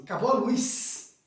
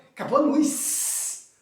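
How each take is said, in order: First: Said in the usual way. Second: "luz" stretched with a long final hiss; higher, slow, lingering on "luz"; drawn-out LUZ. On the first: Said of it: "A gente fala assim". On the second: Retold or imitated. Teacher quoting a common expression to students, "luz" drawn out. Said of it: "Já viu essa expressão?".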